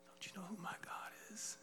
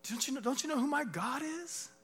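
First: Near-whispered, disbelieving question; hushed challenge. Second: High-pitched, disbelieving challenge; incredulous challenge. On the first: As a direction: drop to a hush and keep the challenge. Challenge repeated in a hush. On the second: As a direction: throw it at the enemy, voice pitched right up. Acted defiant challenge to enemy. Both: Acted.

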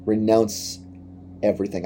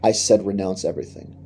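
First: "Renounce" and "everything" split apart with a pause between them, "everything" falling softly; slow emphatic repeat. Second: Said in the usual way. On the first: Shown as a demonstration. A preacher repeating Jesus' demand to his listeners, in a slow, weighty split. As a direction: lean on each word separately.

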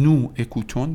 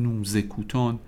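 First: نو اکوتون in two parts, no z between; نو اکوتون unlinked, the s left silent; wrong form without liaison. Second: نو زکوتون linked by a z sound; نو زکوتون run together, z carrying into the vowel; liaison with z. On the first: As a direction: keep نو and اکوتون apart, vowel after vowel. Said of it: "نمیتونم بگم". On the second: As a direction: join it up as "noo-zékooton", نو زکوتون. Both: Shown as a demonstration.

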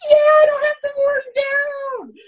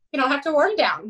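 First: High, loud, drawn-out whoop of relief; imitated elated cheer. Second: Said in the usual way. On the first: Swimmer told he can skip warm down, imitated elated cheer. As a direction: cheer it out in mock jubilation. Athlete's elated echo of coach.

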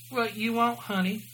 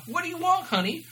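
First: Higher-pitched attempt at New Jersey waitress; lightly put-on New Jersey accent. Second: Much higher, hammed-up New Jersey waitress; high-pitched, obvious New Jersey accent. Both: A narrator's reading. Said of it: "obvious New Jersey accent".

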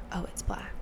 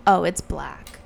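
First: Imitated whispered remark; very quiet. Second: Said in the usual way. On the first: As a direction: whisper it like the barely audible nail technician. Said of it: "the woman was so quiet". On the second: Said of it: "And she's saying, like".

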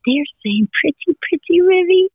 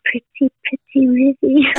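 First: Put-on high singsong to a toddler; singsong bird words. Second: Imitating the toddler. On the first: Grandmother telling granddaughter the birds' song, high singsong. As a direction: coo it like the birds are singing to her. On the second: Granddaughter repeating the birds' song to her mother, small-child voice.

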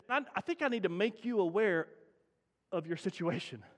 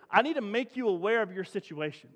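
First: Said in the usual way. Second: Each word of "I need to make you aware of your situation" laid down slowly and deliberately; slow, weighted repeat. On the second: Shown as a demonstration. Preacher repeats the doctor's verdict for weight, slow and deliberate. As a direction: let the doctor's warning land slowly. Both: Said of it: "Let me say that again".

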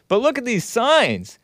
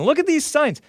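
First: Pitched way up, exasperated; mock outrage. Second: Squeaked high, exasperated; mock outrage. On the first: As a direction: point at the signs in disbelief. Mocking exclaim at protest signs. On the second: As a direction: hit the top of the voice in disbelief. Repeat, even higher.

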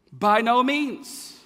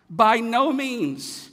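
First: By no means, slow and punched; a slow, emphatic "by no means"; emphatic denial. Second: By no means, slow, high and loud; a slow, shouted "by no means"; emphatic denial. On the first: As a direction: drag out each word for weight. Preacher's emphatic answer. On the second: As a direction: hammer each word from the pulpit. Repeat of the emphatic answer. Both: Acted.

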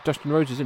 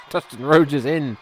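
First: Said in the usual way. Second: Loud call. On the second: Real, not acted. Calling out the wrestler's entrance.

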